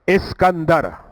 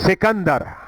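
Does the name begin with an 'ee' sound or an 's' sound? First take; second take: ee sound; s sound. First: The name begins with a vowel sound. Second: The name begins with an s sound. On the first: This is the original form of the name. "इसका नाम है इस्कंदर। यह अलिफ के साथ है।" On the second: This is the locally changed, familiar form. "हमारे यहां इसको थोड़ा बदला जाता है, हम कहते हैं सिकंदर"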